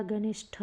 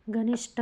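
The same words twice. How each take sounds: First: घनिष्ठ ending in breathy "ṭh"; correct, aspirated. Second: घनिष्ठ ending in a hard "ṭ"; wrong, unaspirated. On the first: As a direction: say घनिष्ठ as "ganisṭh", with a puff. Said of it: "होता है". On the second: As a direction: say घनिष्ठ as "ganisṭ", no puff. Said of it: "नहीं होता". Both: Shown as a demonstration.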